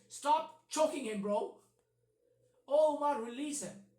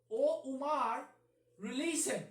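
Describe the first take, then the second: First: Loud, pressing mock order to stop; hammed-up urgent "O Umar, release him"; urgent command. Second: Said in the usual way. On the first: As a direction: bark it like you're breaking up a fight. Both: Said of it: "So his first reaction is".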